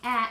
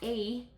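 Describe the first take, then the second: First: The vowel is a short A sound. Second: The vowel is a long A sound. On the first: The speaker calls it right. "I'm saying a" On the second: The speaker calls it wrong. "and not a"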